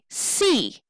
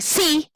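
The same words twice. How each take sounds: First: The word is said strongly, with stress. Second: The word is said weakly, without stress. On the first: The speaker calls it right. "we say see, right? It is stressed" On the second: The speaker calls it wrong. "we don't say see like that"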